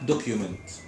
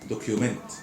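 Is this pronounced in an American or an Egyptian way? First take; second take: Egyptian; Egyptian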